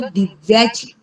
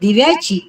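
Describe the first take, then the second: First: The first syllable is stressed and lengthened. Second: The first syllable is short and unstressed. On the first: It means of the divine feat. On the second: It means of the lamp.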